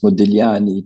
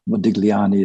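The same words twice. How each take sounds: First: The G is silent in the middle. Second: A hard G is sounded in the middle. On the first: "appropriate way is Modigliani, to not pronounce the G" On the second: "Anglo Saxons pronounce the G"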